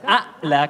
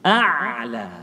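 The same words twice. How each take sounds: First: The ain sound is cut off with held-back voice. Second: The ain sound flows with a slight continuing voice. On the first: The speaker calls it wrong. "Kalau a'la kita menahankan suara, ini kesalahan kita" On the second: The speaker calls it right. "ain sifatnya suara mengalir sedikit"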